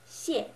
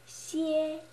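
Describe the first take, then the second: First: It is said with the fourth tone. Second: It is said with the first tone. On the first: "it's the fourth one" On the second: "you can make the following pronunciations"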